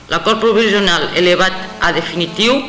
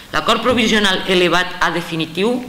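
No difference in how they are said.

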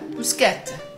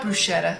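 First: The word is said with an Italian pronunciation. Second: The word is said with an English pronunciation. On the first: The speaker calls it right. "It's Italian" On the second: The speaker calls it wrong. "Not bruschetta"

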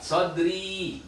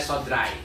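First: The word ends in a plain 'i' vowel. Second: The word ends in an 'ai' vowel. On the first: The speaker calls it right. "Dua harokat" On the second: The speaker calls it wrong. "Gak boleh sodrai"

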